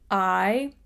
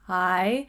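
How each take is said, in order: First: The word begins with a firm glottal catch. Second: The word begins softly, with a gentle onset. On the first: "We get that nice firm press instantly" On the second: "a little gentler with I"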